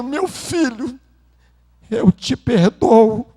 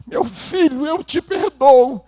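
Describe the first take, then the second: First: Father weeping. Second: Breaking, higher-pitched tearful forgiveness; weeping father forgives his son, voice pitched up. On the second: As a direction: repeat it higher, voice cracking with tears. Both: Retold or imitated.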